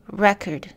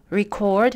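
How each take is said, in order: First: English "record" as REC-ord, falling; "record" with the English noun stress; stress on first syllable. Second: English "record" as re-CORD, rising; "record" with the English verb stress; stress on second syllable. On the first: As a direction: hit the REC of "record", second vowel reduced. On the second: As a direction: hit the CORD of "record", first vowel reduced. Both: Shown as a demonstration. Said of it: "une syllabe reçoit un accent primaire".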